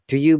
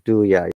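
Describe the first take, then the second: First: The word you is said fully. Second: The word you is reduced to ya. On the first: "So do you becomes" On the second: "in this case do ya"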